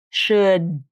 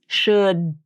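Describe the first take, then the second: No difference in how they are said.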